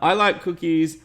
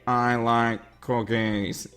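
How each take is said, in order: First: It is said in his normal voice. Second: It is said in a Squidward impression voice.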